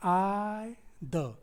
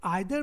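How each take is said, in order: First: "I, the" as two separate, drawn-out syllables. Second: Said in the usual way. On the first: Shown as a demonstration. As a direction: stretch "I", pause, then a short "the". Splits either into two syllables.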